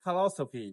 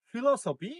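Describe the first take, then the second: First: "ফিলসফি" as fa-LO-so-pi; weak schwa opens "ফিলসফি", stress on LO; correct pronunciation. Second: "ফিলসফি" as fi-lo-so-pi; common mispronunciation. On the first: Teacher models "ফিলসফি" correctly as fa-LO-so-pi. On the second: Teacher shows learners' reading, "ফিলসফি" mispronounced as fi-lo-so-pi. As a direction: clear i in first syllable of "ফিলসফি". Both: Shown as a demonstration. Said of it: "সঠিক উচ্চারণ হবে".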